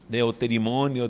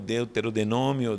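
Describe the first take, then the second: First: The middle is said as 'terimo' before 'nio'. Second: An extra 'de' syllable is inserted before 'nômio'. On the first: "muita gente se confunde ao pronunciar" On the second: "muita gente se confunde ao pronunciar"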